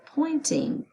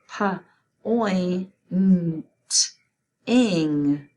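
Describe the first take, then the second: First: Said in the usual way. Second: "Pa, oi, n, t, ing" as isolated sounds with gaps; sounding out. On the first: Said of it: "You say it". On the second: Shown as a demonstration. Teacher breaking pointing down for spelling, sounding out "Pa, oi, n, t, ing" separately. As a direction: segment "Pa, oi, n, t, ing" one sound at a time. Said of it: "So the word is pointing".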